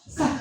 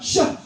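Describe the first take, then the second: First: The sh sound has little spreading air. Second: The sh sound has strong, spreading air. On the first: The speaker calls it wrong. "ayamnya malah nggak pergi" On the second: The speaker calls it right. "angin itu berhembus kuat seluruh mulut"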